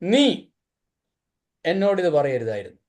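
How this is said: The word നീ is stressed. The problem is who said it. "നീ പറഞ്ഞുകൊണ്ട പ്രശ്നം"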